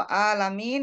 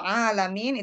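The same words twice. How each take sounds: First: ALAMIN with a plain glottal A at the start, drawn out; hamzah pronunciation. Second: ALAMIN with a throaty pharyngeal 'ain at the start; 'ain pronunciation. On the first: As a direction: open ALAMIN cleanly, without any throaty 'ain. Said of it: "sakit ya". (alamin diawali hamzah, dipanjangkan) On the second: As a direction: tighten the throat for the first A of ALAMIN. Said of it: "Kalau alamin itu alam ya". (alamin diawali 'ain dari tenggorokan) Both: Shown as a demonstration.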